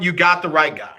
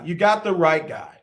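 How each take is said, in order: First: The phrase is said at a louder volume. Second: The phrase is said at a normal, softer volume.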